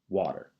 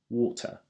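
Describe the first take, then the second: First: The T is flapped like a D, American accent. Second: The T is pronounced clearly, in a British accent.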